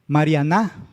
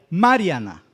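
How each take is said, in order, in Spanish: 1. El acento está en la última sílaba. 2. El acento está en la primera sílaba. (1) "pronunciamos más fuerte la última sílaba" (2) "la antepenúltima, que sería la ma"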